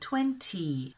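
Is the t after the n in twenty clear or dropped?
clear. The t after the n is clearly pronounced. "In a clearer accent, people might say 20"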